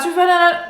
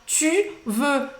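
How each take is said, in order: First: It is said quickly and hurriedly. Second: It is said slowly and carefully. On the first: The speaker calls it wrong. "não precisa a- apressar as coisas" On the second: The speaker calls it right. "Fala devagar"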